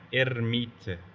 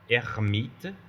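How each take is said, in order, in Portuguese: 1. O R é vibrado com a ponta da língua. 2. O R é feito lá no fundo da garganta. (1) "o que foi ouvido aqui" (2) "o R francês é bem aqui na garganta"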